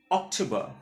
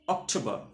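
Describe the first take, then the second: No difference in how they are said.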